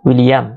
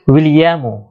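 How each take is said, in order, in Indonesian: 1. Nama itu berakhir dengan konsonan m saja. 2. Nama itu berakhir dengan vokal u pendek.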